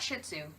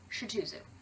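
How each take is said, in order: First: The breed name is pronounced the usual way. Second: The breed name is pronounced in a distorted way.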